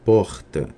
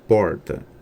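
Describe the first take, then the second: First: The R is a friction sound at the back. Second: The R is a curled-tongue retroflex sound. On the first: This is typical of Rio de Janeiro. "a fricativa velar" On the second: This is typical of inland São Paulo. "temos o retroflexo, que é comumente chamado de R caipira"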